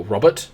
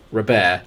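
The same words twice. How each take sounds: First: "Robert" said as ROB-ert, final t sounded; English-style Robert. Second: "Robert" said as roh-BAIR, silent t; French-style Robert. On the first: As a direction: say "Robert" the English way, stressed first syllable. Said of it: "I might call him Robert". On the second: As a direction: say "Robert" the French way, ending in -air. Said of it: "we have a player called Robert". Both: Shown as a demonstration.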